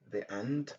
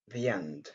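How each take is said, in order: First: The words are kept apart with no y glide. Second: The words are joined with a y glide. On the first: The speaker calls it wrong. "Au lieu de dire" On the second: The speaker calls it right. "il est mieux de dire"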